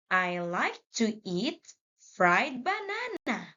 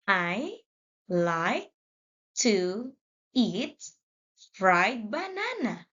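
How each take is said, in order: First: Smooth, quicker reading in one flow; read faster. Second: Each word read apart with pauses; slow word by word. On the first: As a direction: run the words together quickly. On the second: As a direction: read it slowly, one word at a time. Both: Shown as a demonstration. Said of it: "Let's read faster".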